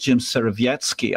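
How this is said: The surname has a Polish pronunciation. "but in Polish"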